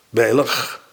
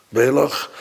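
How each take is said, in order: First: The word ends in a g sound. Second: The word ends in a g sound.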